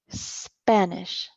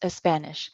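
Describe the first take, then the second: First: The word starts directly with the s sound. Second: An extra e vowel comes before the s. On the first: The speaker calls it right. "The pronunciation study, Spanish" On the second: The speaker calls it wrong. "no es Spanish"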